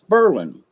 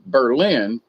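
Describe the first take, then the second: First: It is said with the Southern local pronunciation. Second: It is said the way it is written, non-Southern.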